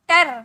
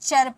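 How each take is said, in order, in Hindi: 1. इसे 'tar' पढ़ा जाता है। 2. इसे 'char' पढ़ा जाता है। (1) "ना टर पढ़ेंगे" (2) "इसे चर पढ़ेंगे"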